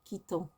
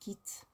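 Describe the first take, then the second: First: The ending is sounded as a nasal vowel. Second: The ending is silent, word ends in t. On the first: The speaker calls it wrong. "you don't pronounce it quittant" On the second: The speaker calls it right. "it's quitte"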